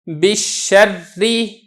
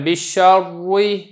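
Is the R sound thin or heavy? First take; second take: thin; heavy. First: The R is pronounced thin and light. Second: The R is pronounced heavy and full. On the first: The speaker calls it right. "रा को बारीक करना है" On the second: The speaker calls it wrong. "इसको पूर्ण नहीं करना आपने, ... ये गलत हो जाएगा"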